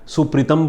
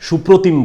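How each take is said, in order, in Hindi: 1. नाम पंजाबी उच्चारण में बोला गया है। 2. नाम बंगाली उच्चारण में बोला गया है। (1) "वहाँ लोग सुप्रीतम बोलने लगे" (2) "बंगाली लोग शायद मेरा नाम सुप्रोतिम बोलेंगे"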